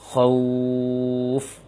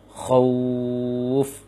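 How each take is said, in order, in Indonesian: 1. Vokalnya langsung menyambung ke f terakhir. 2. Vokalnya langsung menyambung ke f terakhir.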